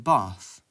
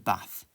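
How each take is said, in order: First: It is said in a southern English accent. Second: It is said in a northern English accent. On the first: "people from the south would call it a bath" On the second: "I would call it a bath"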